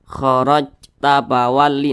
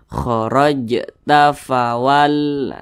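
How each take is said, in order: First: The j stops flat without an echoing bounce. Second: The j is released with an echoing bounce. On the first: The speaker calls it wrong. "itu enggak ada pantulan salah" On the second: The speaker calls it right. "harus ada pantulannya"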